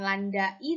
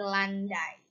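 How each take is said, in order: First: The a and i are two separate vowels. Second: The a and i glide together in one breath. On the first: The speaker calls it wrong. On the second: The speaker calls it right.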